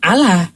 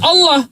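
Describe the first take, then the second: First: The L is said thin and light. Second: The L is said thick and heavy. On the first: The speaker calls it wrong. "bukan Allah" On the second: The speaker calls it right.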